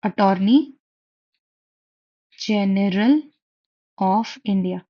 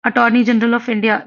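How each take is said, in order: First: Attorney, then General, then of India, each on its own with a long pause and a small rise; Attorney and General rising, of India falling, with long gaps between; word by word. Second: Attorney General of India said slowly, every word clear; slow dictation of Attorney General of India. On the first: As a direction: break Attorney General of India into separate words for the class. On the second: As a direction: spell out the name slowly for students. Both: Shown as a demonstration. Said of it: "सुना है ना आपने?".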